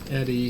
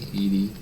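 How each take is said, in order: First: The first vowel is short, as in 'bed'. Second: The first vowel is long, as in 'bee'. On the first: The speaker calls it wrong. "I was pronouncing it Eddie" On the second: The speaker calls it right. "It's e- Edie"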